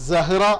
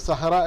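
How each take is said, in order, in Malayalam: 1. ഈ വാക്ക് z ശബ്ദത്തിലാണ് തുടങ്ങുന്നത്. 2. ഈ വാക്ക് s ശബ്ദത്തിലാണ് തുടങ്ങുന്നത്. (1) "സെഡിൽ പറയുന്നത് പോലെ സ വെച്ചുകൊണ്ടാണ് പറയേണ്ടത്" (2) "ശരിക്കും സഹ്റ അല്ല"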